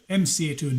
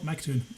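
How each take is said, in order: First: The name begins with the letters M and C. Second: The name begins with the syllable 'Mac'. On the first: The name refers to a rapper. The speaker calls it right. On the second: The name is Scottish. The speaker calls it wrong. "not Mactoon"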